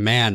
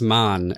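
First: The name is pronounced like the English word. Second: The name is pronounced with a German vowel. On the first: The speaker calls it wrong. "I've been saying man" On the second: The speaker calls it right. "German pronunciation"

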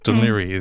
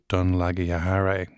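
First: The name is said smoothly as 'Dun-leery'. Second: The name is sounded out letter by letter, as spelled. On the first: The speaker calls it right. "he should have got it right. It's Dunleary" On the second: The speaker calls it wrong. "we all know he was trying to say Dunleary"

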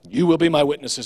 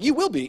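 First: It sounds like a heavy, stern command. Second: It sounds like a hopeful, reassuring promise.

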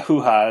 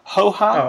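First: The first vowel is an 'oo' sound. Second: The first vowel is an 'oh' sound. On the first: The speaker calls it wrong. "not a hoo ha" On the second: The speaker calls it right.

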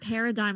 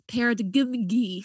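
First: The G in the word is silent. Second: The G in the word is pronounced aloud.

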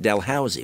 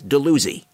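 First: It is pronounced just as it is spelled. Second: It is pronounced differently from its spelling. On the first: The speaker is from out of town. "they pronounce it Dalhousie, which is the way it's spelled" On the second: The speaker is a local. "a native Brantfordian knows that it's not Dalhousie, it's Dalhousie"

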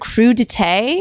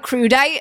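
First: The word ends with a 'tay' sound, French style. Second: The word ends with a 'tight' sound, anglicized. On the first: The speaker calls it right. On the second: The speaker calls it wrong.

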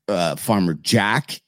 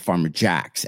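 First: The name ends without an s sound. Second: The name ends with an added s sound. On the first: "Farmer Jack is the name" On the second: "but everybody says I'm going Farmer Jack's"

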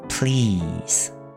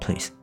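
First: A long vowel said with spread, smiling lips. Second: A short vowel without smiling, sounding like police. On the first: The speaker calls it right. "同时要有一个笑笑的嘴型，才会Please" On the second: The speaker calls it wrong. "如果你没有笑，就变成Please Please Please，就好像Police 警察"

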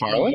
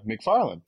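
First: It rises at the end, like a question. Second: It falls at the end, like a statement.

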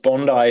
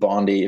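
First: It is pronounced the Australian way. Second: It is pronounced the American way. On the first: "Bondi if you're Australian" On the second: "Bondi if you're American"

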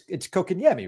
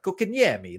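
First: The name is said in a plain accent. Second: The name is said in an Italian-American accent. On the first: "It's kokanyemi, right?" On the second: "Sometimes I put like a little accent on it, like kokanyemi"

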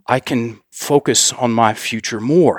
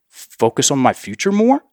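First: It sounds confident and solid, falling at the end. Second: It sounds tentative, rising at the end.

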